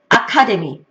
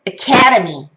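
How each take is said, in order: First: It is said the Korean loanword way. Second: It is said the native English way.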